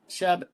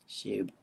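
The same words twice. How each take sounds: First: The name is said to rhyme with shrub. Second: The name is said not rhyming with shrub. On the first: The speaker calls it wrong. "I'm saying it wrong like a shrub" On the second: The speaker calls it right. "that's better"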